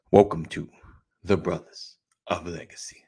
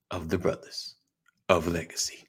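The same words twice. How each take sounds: First: Announcer line fading to a whisper. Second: Announcer voice. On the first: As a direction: drop from host call to whisper. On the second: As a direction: announce the show name like a host. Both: Shown as a demonstration. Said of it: "working on my announcer voice".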